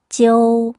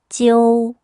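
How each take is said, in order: Both takes have the same delivery.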